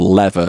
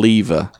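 First: It is said with an American accent. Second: It is said with a non-American accent.

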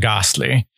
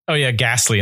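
First: The word is said with a British accent. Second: The word is said with an American accent. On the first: The speaker calls it right. "instead of" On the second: The speaker calls it wrong. "you pronounce it this way"

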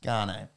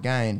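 First: The surname has two syllables, like garner. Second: The surname rhymes with the word gain. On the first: "I insist it's Garner" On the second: "rhyme it with Gain"

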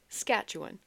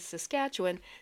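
First: One of the word's syllables is left out. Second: All of the word's syllables are pronounced. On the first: The speaker calls it wrong. "there's another syllable in that word" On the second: The speaker calls it right. "instead of saying Saskatchewan"

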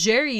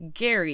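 First: The name begins with a soft J sound. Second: The name begins with a hard G sound. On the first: The speaker calls it right. "it is Jerry Duggan" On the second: The speaker calls it wrong. "and not Gary, even though it's a G"

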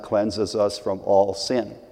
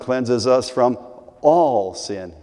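First: The word all has no special emphasis. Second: The word all is strongly emphasized. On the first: "Only that's not the way Norm said it" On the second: "He would emphasize that word all"

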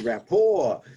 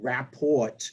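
First: The final T is silent. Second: The final T is pronounced. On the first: The speaker calls it right. "It's rapport, a French word" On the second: The speaker calls it wrong. "it's not rapport"

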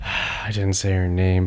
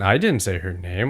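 First: It sounds resigned and annoyed, with a sigh. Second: It sounds surprised and spooked, like something eerie.

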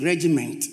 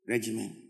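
First: The final T sound is clearly pronounced. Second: The final T sound is dropped. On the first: The speaker calls it wrong. "you don't say regiment" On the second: The speaker calls it right. "just say regiment"

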